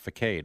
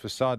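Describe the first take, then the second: First: The c is said like a k sound. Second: The c is said like an s sound. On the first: The speaker calls it wrong. "not facade" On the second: The speaker calls it right. "you actually knew it was facade"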